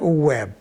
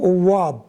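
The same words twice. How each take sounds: First: The vowel sounds light and plain. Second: The vowel sounds heavy and emphatic. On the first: "بيفضلوا انها تتقال" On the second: "بيستثقلوا انهم يقولوا"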